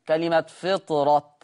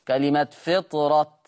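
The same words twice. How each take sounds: Both takes have the same delivery.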